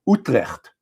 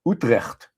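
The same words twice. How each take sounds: The two takes are said the same way.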